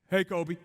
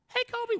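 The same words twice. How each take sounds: First: It is said in an exaggerated deep voice. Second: It is said in his normal voice.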